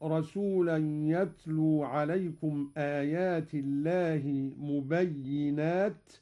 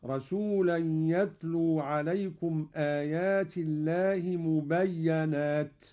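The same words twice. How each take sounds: First: Doubled y of "مبينات" followed by i; kasra on ya. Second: Doubled y of "مبينات" followed by a; fatha on ya. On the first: Teacher quoting the verse before the variant, "مبينات" as mubayyinat. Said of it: "قوله تعالى". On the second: Teacher demonstrating Qalun's reading, "مبينات" as mubayyanat. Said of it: "قرأ قالون بفتح الياء مشددة". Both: Shown as a demonstration.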